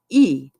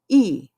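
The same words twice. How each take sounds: First: The vowel is said as the letter's name. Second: The vowel is said as the letter's name.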